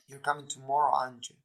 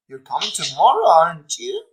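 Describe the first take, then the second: First: The pitch falls at the end of the tag. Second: The pitch rises at the end of the tag. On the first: The speaker is sure the information is true. "if we are sure the information, the intonation is falling" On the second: The speaker is less sure and wants confirmation. "you are less sure if the intonation is rising"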